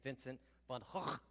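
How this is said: The name is said the Dutch way.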